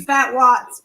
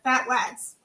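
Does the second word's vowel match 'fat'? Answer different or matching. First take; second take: different; matching. First: The second word's vowel differs from 'fat'. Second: The second word's vowel rhymes with 'fat'. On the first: "I don't know if it's supposed to be fat watts" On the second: "I wanted this to rhyme"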